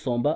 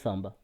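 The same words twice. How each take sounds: First: The name is said with a French accent. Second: The name is said with an African accent. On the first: The speaker calls it wrong. "à cause de l'accent française" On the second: The speaker calls it right. "ça se prononce Samba"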